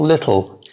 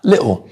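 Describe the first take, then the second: First: The middle consonant is a clear T sound. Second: The middle T is left out entirely. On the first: "English people will go more um, lit, tl" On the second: "some English people will say little and miss the T out altogether"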